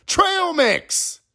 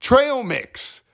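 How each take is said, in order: First: "Trail Mix" squeaked very high; even higher slogan. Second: "Trail Mix" as a big ad slogan; brand name punched. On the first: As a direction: top the jingle with "Trail Mix" at peak pitch. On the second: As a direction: TRAIL Mix sung out high. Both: Pretend.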